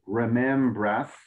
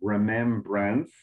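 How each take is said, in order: First: The N sound before the ending is left out. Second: The N sound before the ending is clearly said. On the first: The speaker calls it wrong. "I didn't hear the N. So I think you said remembras" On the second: The speaker calls it right. "you want to make sure to get the N in there"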